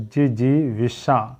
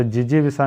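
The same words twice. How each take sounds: First: "जिजी विसा" slow, syllables apart, ending in shaa; correct pronunciation demo. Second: "जिजी विसा" quick, with a plain s; wrong pronunciation demo. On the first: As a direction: separate "जिजी विसा" and hush the last consonant to sh. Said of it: "जिजी विसा नहीं होता". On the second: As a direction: rush "जिजी विसा", ending in saa. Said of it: "नहीं होता है". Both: Shown as a demonstration.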